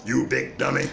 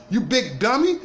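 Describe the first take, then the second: First: Lightly mock-scold like the grumpy old junk man; light take on a grouchy TV father calling his son a dummy; Fred Sanford. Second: Said in the usual way. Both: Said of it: "In my Fred Sanford voice".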